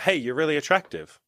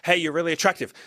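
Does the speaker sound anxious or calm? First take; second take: calm; anxious. First: It is said in a calm, settled way. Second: It is said in a nervous, anxious way. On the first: The speaker states it and waits for a response. The speaker calls it right. "Put it out there" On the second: The speaker is desperate for a response. The speaker calls it wrong. "be like a, an anxious rabbit going like"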